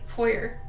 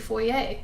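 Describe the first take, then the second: First: It is said in a plain English style. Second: It is said in a French-style way. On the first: The everyday way most people say it. The speaker calls it right. "we say foyer" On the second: It makes the speaker sound pretentious. The speaker calls it wrong. "some people say foyer"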